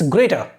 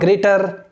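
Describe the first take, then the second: First: The final R is silent. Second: The final R is pronounced. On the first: The speaker calls it right. "R is silent over here also" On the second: The speaker calls it wrong. "it's not greater"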